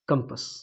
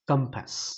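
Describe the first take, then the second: First: The second vowel is a short 'uh' sound. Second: The second vowel is a long 'aa' sound. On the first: The speaker calls it right. "Now it is correct" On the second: The speaker calls it wrong. "जैसे मैंने अभी just बोला, गलत बोला"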